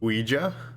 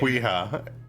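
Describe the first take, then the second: First: The word begins with a W sound. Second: The word begins with a K sound. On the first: The speaker calls it right. "I learned for the first time that it's" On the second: The speaker calls it wrong. "called it my whole life"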